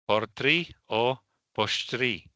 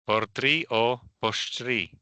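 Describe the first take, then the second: Both takes have the same delivery.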